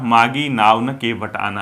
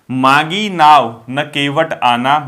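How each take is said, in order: First: Slow, pause after न. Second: Slow, pause after नाव. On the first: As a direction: read मागी नाव न, then pause before केवट आना. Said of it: "न इधर आ गया, comma इधर लग गया". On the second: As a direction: read मागी नाव, then pause before न केवट आना. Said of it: "ये कॉमा लगा है ना". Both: Shown as a demonstration.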